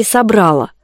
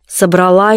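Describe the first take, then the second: First: Собрала stressed on the middle syllable, -БРА-. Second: Собрала stressed on the final syllable, -ЛА; stress on last syllable. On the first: Poet weighs the right form, собрала stressed on БРА. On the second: Poet weighs the right form, Собрала stressed on final ЛА. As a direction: put the stress in Собрала at the end. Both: Shown as a demonstration. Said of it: "как правильно?".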